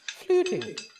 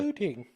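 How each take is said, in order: First: It is said sarcastically at a higher pitch. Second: It is said plainly at a normal pitch.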